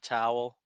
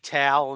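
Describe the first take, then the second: First: It is said with a standard, neutral American accent. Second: It is said with a Philadelphia-area regional accent. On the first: This is how most people say it. "instead of towel" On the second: This is how someone from that area says it. "she'll say towel"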